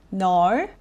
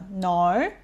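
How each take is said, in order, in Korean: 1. 모음은 입을 크게 벌리고 시작해서 'now'에 가깝게 들립니다. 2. 모음은 입을 크게 벌리고 시작해서 'now'에 가깝게 들립니다.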